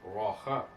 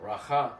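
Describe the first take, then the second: First: "Racha" with a rounded aw first; "Racha" in two beats, raw-KHAH. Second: "Racha" with an open rah, then khah; "Racha" mispronounced without its w sound; wrong first vowel. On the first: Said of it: "R A W C H A A". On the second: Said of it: "not Racha". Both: Shown as a demonstration.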